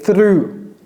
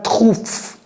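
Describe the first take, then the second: First: The word ends on a vowel, no f. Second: The word ends with an f sound. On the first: The speaker calls it right. "C'est through. Il n'y a rien à la fin" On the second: The speaker calls it wrong. "Ce n'est pas trouf. Trouf, non"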